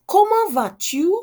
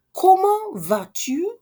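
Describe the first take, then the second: First: Comment vas-tu? pitched high and loud, rising; bright high question. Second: Comment vas-tu? high and slow, each syllable drawn out; slow high question. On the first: Teacher greeting learners with Comment vas-tu?. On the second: Teacher repeating Comment vas-tu? slowly for learners. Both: Shown as a demonstration.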